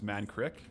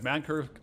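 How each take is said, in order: First: The name ends with the sounds 'krik'. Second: The name ends with the sounds 'kirk'. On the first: The speaker calls it right. "It's Mankrik" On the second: The speaker calls it wrong. "I'm probably mispronouncing that"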